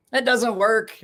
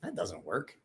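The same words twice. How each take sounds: First: Higher, louder, put-on retort. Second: Softer, under-the-breath aside; quiet aside. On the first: Answering a viewer in chat with a playful higher retort. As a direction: toss it back playfully. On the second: Reacting to chat, a quiet aside to himself. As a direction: mutter it to yourself. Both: Real, not acted.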